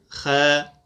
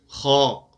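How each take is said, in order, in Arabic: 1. صوت الخاء خفيف ونحيف. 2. صوت الخاء ثقيل ومفخَّم. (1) "ولا نقول خا" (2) "فنقول خا"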